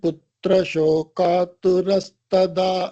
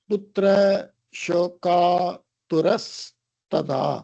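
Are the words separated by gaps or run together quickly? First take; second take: run together; separated. First: The words are run together quickly without gaps. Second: Each word is said with gaps between them. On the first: "அந்த பிரிச்ச கேப்ப குறைச்சுண்டு அதை அப்படியே படிக்கிறேன்" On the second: "நான் எப்படி பிரிச்சேனோ"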